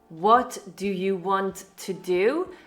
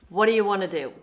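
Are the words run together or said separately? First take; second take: separately; run together. First: Each word is said clearly and separately. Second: The words are run together and reduced.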